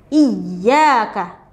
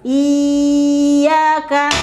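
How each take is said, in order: First: The opening vowel is short before the doubled y. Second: The opening vowel is drawn out long. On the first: The speaker calls it right. "tapi iyyaka" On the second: The speaker calls it wrong. "tidak dibaca dengan panjang, bukan iyyaka"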